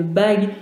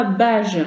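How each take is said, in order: First: Bague with a hard g at the end; correct hard G. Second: Bage with a soft zh sound at the end; wrong soft G. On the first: Teacher giving children the real ring word, hard G. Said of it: "à son doigt, on met une bague". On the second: Teacher showing children the misspelt word, soft G. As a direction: say bage ending in zh, like French "je". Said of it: "si je laisse le G tout seul". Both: Shown as a demonstration.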